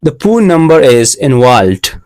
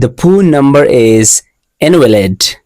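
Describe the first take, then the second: First: Invalid comes out as "involved"; mispronounced invalid. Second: Said in the usual way. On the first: Retold or imitated. Learner repeating the phone message he misread, invalid mispronounced as "involved". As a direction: say "involved" where invalid is meant. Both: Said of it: "I pronounced invalid like involved".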